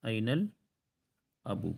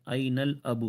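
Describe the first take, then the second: First: أين الأب slowed right down and softer; slow model repeat. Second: Said in the usual way. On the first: Shown as a demonstration. Teacher repeating for students, slow and careful. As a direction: repeat it slowly for the class. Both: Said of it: "father والا word کیا ہے".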